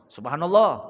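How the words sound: It is said in an alerting, reminding tone.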